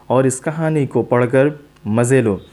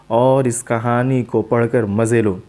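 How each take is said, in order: Both takes have the same delivery.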